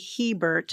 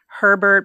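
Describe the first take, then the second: First: It starts with an H and no R. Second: It starts with an H and has an R. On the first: This is how the spelling reads. "phonetically would be Hebert" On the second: This is how most people say it. "everybody pronounces it Herbert"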